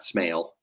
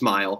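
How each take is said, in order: First: The vowel sounds like the one in 'male'. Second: The vowel sounds like the one in 'mile'. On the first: The speaker calls it wrong. "not Smale" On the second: The speaker calls it right. "it is Smile"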